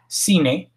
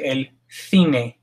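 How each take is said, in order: First: The c is sounded like s. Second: The c is sounded like th. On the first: "like the word that I put earlier" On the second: "in Spain, some parts of Spain, they would say"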